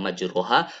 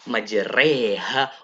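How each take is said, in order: First: The vowel after r is a full open a. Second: The vowel after r is leaned toward e. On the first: This is the ordinary reading without imalah. "yang tadinya majroha" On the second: This is the reading with imalah. "berubah menjadi majreha"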